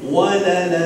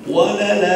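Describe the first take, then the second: No difference in how they are said.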